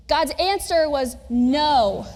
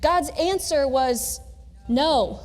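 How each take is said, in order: First: Slow, deliberate. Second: Slow. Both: Shown as a demonstration. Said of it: "I'm gonna do that several times".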